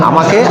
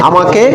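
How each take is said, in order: No difference in how they are said.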